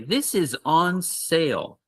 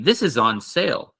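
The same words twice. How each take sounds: First: It is said slowly and carefully. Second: It is said quickly at natural speed.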